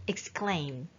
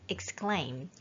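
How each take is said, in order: No difference in how they are said.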